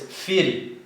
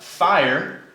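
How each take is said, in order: First: The vowel is said like 'ee'. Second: The vowel is said like 'eye'. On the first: The speaker calls it right. "the I makes an E sound" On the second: The speaker calls it wrong. "it's not fire, although it looks like fire"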